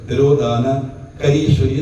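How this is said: There is a break after the first part. The speaker calls it wrong. "അവിടെ നിർത്തരുത്, ശ്വാസം വിട്ടാൽ പോയി"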